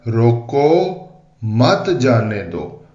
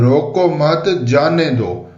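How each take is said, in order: First: "रोको" alone, long pause, then slow "मत जाने दो"; pause after रोको. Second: "रोको मत" run together as one phrase, then "जाने दो"; group "रोको मत", break briefly before "जाने दो"; pause after मत. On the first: Other guards reading the order as "stop them", pause after "रोको", then "मत जाने दो". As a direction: stop firmly after "रोको", join "मत जाने दो" and let it fall. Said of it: "ये तहरीर यूं लिखी हुई है". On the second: Guards reading the king's order as "let them go", "रोको मत" joined, then "जाने दो". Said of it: "इस तहरीर में लिखा हुआ है". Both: Shown as a demonstration.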